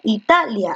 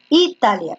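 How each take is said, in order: First: Italia stressed on TA; stress on second-last syllable. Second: Italia with the first I stressed; testing syllable stress. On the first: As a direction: Italia said as i-TA-lia. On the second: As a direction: Italia said as Í-ta-lia, as a test. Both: Shown as a demonstration. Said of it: "es una grave".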